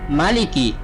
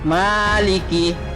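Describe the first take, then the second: First: The first vowel is short. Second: The first vowel is drawn out long. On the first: The speaker calls it right. "Yang benar maliki" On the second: The speaker calls it wrong. "bukan maliki. Salah"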